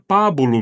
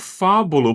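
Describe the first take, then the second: First: The name begins with a P sound. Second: The name begins with an F sound. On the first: This is how the name is really said. The speaker calls it right. "Mas é Pábulo mesmo" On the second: This is how many people misread the spelling. The speaker calls it wrong. "Muita gente lê como fábulo, porque é com P H"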